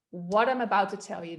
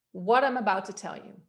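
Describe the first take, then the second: First: I'm lifted and pressed; stress on I'm. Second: What hit hard at the start; stress on What. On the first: Teacher repeating with emphasis on I'm. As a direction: lean into I'm, rest flows on. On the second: Teacher showing emphasis on What. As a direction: land on What, then let it fall. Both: Shown as a demonstration. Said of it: "that's an onset".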